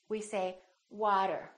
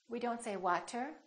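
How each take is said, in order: First: The middle consonant is a quick, light tap. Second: The middle consonant is a strong, full stop. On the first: The speaker calls it right. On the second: The speaker calls it wrong.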